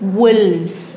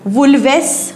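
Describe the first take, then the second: First: One syllable, ending in a plain vz sound. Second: Two syllables, with an extra vowel before s. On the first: The speaker calls it right. "अनेक वचन वुल्फचं काय होतं वुल्व्स" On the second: The speaker calls it wrong. "असं नाही आहे"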